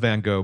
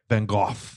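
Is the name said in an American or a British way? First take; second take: American; British. First: The name is said with American pronunciation. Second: The name is said with British pronunciation.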